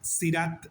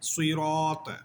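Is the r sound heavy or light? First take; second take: light; heavy. First: The r sound is light and thin. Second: The r sound is heavy and thick. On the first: The speaker calls it wrong. "সিরাত বলা যাবে না" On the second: The speaker calls it right. "রা মোটা করে বলতে হবে"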